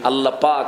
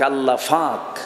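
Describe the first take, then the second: First: The second word begins with a p sound. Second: The second word begins with an f sound. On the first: This is the standard form of the phrase. The speaker calls it right. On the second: This is a regional way of saying it. The speaker calls it wrong.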